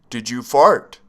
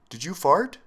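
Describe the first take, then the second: First: It is said more loudly. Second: It is said softly.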